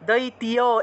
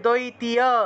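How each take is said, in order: First: The ending is split into separate syllables, ti-ya. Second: The ending is split into separate syllables, ti-ya.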